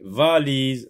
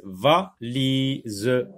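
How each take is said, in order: First: Said in the usual way. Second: "valise" split into va, li, se; syllable by syllable. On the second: Shown as a demonstration. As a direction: sound out each syllable of "valise" separately. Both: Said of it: "Dans la première syllabe".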